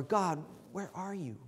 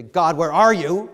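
First: Hushed, humble question to God; soft, searching plea; respectful plea. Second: Loud challenge thrown at God, rising at the end; loud, confrontational question; disrespectful demand. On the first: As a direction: ask it softly and reverently, falling at the end. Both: Shown as a demonstration. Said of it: "say that two different ways".

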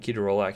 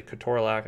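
First: "ketorolac" said as KEE-toe-ROLE-ack; usual pronunciation. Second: "ketorolac" said as kuh-TOR-uh-lack; alternative pronunciation. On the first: Lecturer naming the drug for students, "ketorolac" as keto-ROLE-ac. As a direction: say "ketorolac" in separate keto and rolac parts. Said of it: "which way you pronounce it". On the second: Lecturer showing how some people say it, "ketorolac" as ke-TOR-olac. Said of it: "some people say ketorolac". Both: Shown as a demonstration.

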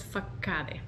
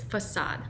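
First: "facade" misread with a hard k and a final e, fa-KA-de; wrong spelling pronunciation. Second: "facade" with an s sound, stress on the end; correct pronunciation. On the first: Teacher demonstrating the common mistake: "facade" as fa-ka-de. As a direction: read "facade" letter by letter, Spanish style, with a k sound. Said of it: "No es facade". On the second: Teacher modelling the right way: "facade" as fuh-sahd. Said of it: "es facade". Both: Shown as a demonstration.

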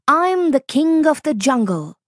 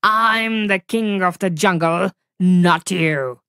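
First: High, bold fox voice claiming the crown; bluffing fox. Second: Big cat offended, putting the fox down; indignant tiger. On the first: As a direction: fox puffing himself up as king. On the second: Tiger insists on his title. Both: Acted.

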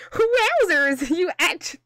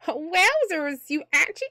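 First: Higher, slow, stretched-out character voice. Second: Higher put-on character voice, tried once; reading the line in a higher, put-on cartoon voice. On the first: Acted. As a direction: drag the wowzers out in a higher put-on voice. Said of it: "I need to do voices for Twitch". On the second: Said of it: "I don't wanna do that voice".

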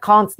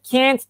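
First: British "can't", open ah as in "father". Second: American "can't", fronted vowel as in "cat". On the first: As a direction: pronounce "can't" like "kant", the British way. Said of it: "Bunu İngilizler can't diye okuyor". (İngiliz usulü "can't", "kant" gibi) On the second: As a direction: pronounce "can't" like "kent", the American way. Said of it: "Amerikanlar can't diye okuyor". (Amerikan usulü "can't", "kent" gibi) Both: Shown as a demonstration.

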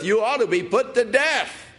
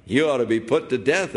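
First: Yelling. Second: Said in the usual way. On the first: Acted. David shouting his verdict at sleeping Abner. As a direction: hurl the sentence across the valley. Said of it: "He started yelling". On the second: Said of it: "Abner, you're supposed to be his bodyguard".

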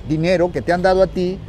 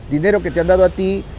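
Both takes have the same delivery.

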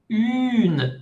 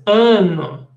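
First: "une" higher, long rounded u, clear n; correct une. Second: Drawn-out nasal "un" with an extra syllable; wrong nasal un. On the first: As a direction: hold the pure u in "une", then n. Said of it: "no es". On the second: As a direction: stretch "un" wrongly through the nose. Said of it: "No es un". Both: Shown as a demonstration.

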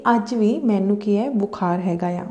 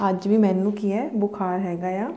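No difference in how they are said.

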